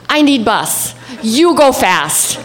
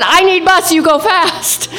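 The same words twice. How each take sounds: First: Slow, halting broken words; broken phrasing. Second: High, laughing broken words; high laughing plea. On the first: Tourist begging a driver in halting broken words. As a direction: spell it out slowly to a stranger. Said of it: "in broken Spanish". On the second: Tourist repeating her plea to the driver, laughing. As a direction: beg again through laughter. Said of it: "And I said". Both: Retold or imitated.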